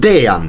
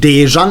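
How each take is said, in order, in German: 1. Das j klingt wie das y in yes. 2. Das j klingt wie das j in jam. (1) "Ein J ist bei uns immer ein J" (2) "Es ist nicht Dejan"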